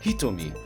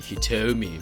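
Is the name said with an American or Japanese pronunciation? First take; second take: Japanese; American. First: The name is said with a Japanese pronunciation. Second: The name is said with an American pronunciation. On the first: The speaker calls it right. "I think it's Hitomi in Japanese" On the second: The speaker calls it wrong. "which is the American way of sing saying it"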